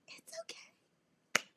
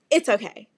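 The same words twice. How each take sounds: First: Tiny, very high, slow whisper; mock tearful squeak. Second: Louder, brisk cover-up; forced reassurance. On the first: Stranded driver lying to helper, mock tearful. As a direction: squeeze it out, feigning held-back sobs. Repeats it, nearly crying. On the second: Retold or imitated. Stranded driver hiding tears from helper, forced reassurance. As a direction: insist firmly that you are fine. First brave reply to the man.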